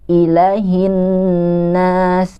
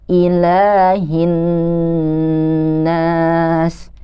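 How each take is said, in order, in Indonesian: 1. Vokal setelah l dibaca pendek. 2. Vokal setelah l dibaca panjang. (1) "sering ada yang membaca lamnya itu pendek" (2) "ini harus dibaca panjang"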